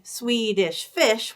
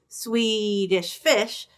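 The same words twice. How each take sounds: First: Two quick short syllables, then a long 'Fish'. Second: A long first syllable, then two quick short ones. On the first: "we usually say Swedish Fish, which sounds like T, T, ta" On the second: "You could do Swedish Fish, ta, T, T"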